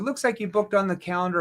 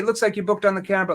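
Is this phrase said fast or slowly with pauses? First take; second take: slowly; fast. First: It is said slowly with small pauses. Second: It is said quickly without pausing. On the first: The speaker calls it right. "look at the verbal pauses right here" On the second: The speaker calls it wrong. "I'm asking the question too fast"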